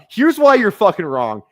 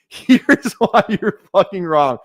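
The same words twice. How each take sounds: First: Said in the usual way. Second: Laughing retake. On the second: Shown as a demonstration.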